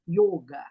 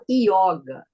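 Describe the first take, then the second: First: The first vowel is a closed O. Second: The first vowel is an open O. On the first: This is the correct original form. "o correto seria yoga, com som fechado" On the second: This is how many people in Brazil say it. "Como muita gente fala yoga"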